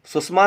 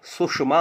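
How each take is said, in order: First: सुषमा with a plain 's', susma; mispronounced word. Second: सुषमा with 'sh', sushma; correct pronunciation. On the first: Teacher mimicking a common slip, सुषमा as susma. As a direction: say सुषमा high, 's' for 'sh'. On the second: Teacher correcting the slip, सुषमा as sushma. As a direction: say सुषमा slowly with a clear 'sh' in the middle. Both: Shown as a demonstration. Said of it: "सुषमा होता है".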